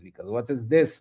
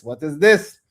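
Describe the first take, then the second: First: Said in the usual way. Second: Louder, rising disbelief; what is this, louder with a rising end; incredulous. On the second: Real, not acted. Repeated outrage, louder.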